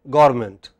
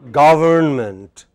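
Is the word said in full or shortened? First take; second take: shortened; full. First: A sound in the middle is dropped. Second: Every sound in the word is pronounced. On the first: The speaker calls it wrong. "many people take this away" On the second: The speaker calls it right. "How should it be pronounced?"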